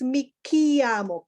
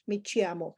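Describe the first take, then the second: First: Chiamo starts with a hard k sound. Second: Chiamo starts with a ch sound, as in church. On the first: The speaker calls it right. "This is mi chiamo, ki" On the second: The speaker calls it wrong. "you are reading this in Spanish"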